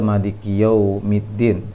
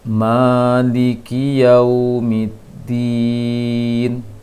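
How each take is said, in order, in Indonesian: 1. Bunyi waw-nya lemah dan kurang jelas. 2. Bunyi waw-nya dimajukan dan jelas. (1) "kurang ke wawnya" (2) "Agak dikedepankan sedikit, dijelaskan sedikit untuk ke makhraj wawnya"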